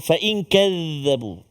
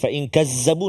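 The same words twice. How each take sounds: First: The middle consonant is a soft th-like sound. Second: The middle consonant is a plain z sound. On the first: The speaker calls it right. "jaga huruf dzal" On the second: The speaker calls it wrong. "jangan jangan zai. ... no"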